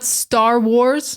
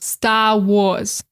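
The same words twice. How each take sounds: First: The R sounds are pronounced. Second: The R sounds are dropped. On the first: "So not Star Wars" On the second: "showcase the Boston accent"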